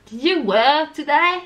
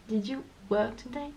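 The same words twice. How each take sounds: First: "Did you work today" loud, high and drawn out; over-the-top slow English melody on "Did you work today"; exaggerated zigzag. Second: "Did you work today" softer and flat, rising only slightly; timid flat French-style "Did you work today"; no zigzag. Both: Shown as a demonstration. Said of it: "si tu fais pas les zigzags".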